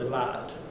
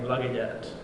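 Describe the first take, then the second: First: The word is cut down to one syllable. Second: The word is said with all three syllables.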